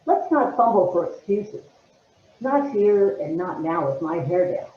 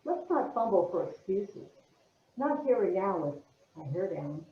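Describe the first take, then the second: First: Firmer, mildly upset monologue opening; irritated, anxious. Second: Soft, understated monologue opening; barely irritated. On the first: Actress retaking the opening after notes, anxious and mildly irritated. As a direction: push it out with some irritation. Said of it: "you're anxious and you're upset". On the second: Actress opening her monologue, subdued, barely irritated. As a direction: say it quietly with little edge. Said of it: "I think you're much more irritated". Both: Acted.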